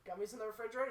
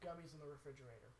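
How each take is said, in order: First: REFRIGERATOR rising into a question at normal volume; retold baffled echo, REFRIGERATOR ending upward; puzzled question. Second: Low, hushed imitation of earnest advice; understated, deadpan retold recommendation; confiding advice. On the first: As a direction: echo it back, lifting REFRIGERATOR in doubt. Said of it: "I was like". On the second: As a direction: drop it low and quiet, like a solemn tip. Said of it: "he's like".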